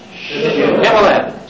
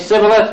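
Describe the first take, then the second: First: The word begins with a sh sound. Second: The word begins with a plain s sound. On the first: The speaker calls it right. "Don't say Sibboleth. Say Shibboleth" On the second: The speaker calls it wrong. "If you say Sibboleth, we stab you in the Jordan"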